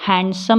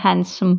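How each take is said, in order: First: हैंडसम with d in the middle; हैंडसम, d heard before s; sounded D. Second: हैंडसम as han-sum; हैंडसम, d dropped; silent D. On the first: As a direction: say हैंडसम as hand-sum. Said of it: "हैंडसम नहीं बोलते हैं". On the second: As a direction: say हैंडसम with n straight into s. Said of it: "हैंडसम बोलते हैं". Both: Shown as a demonstration.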